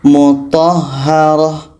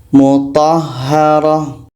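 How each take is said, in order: Both takes have the same delivery.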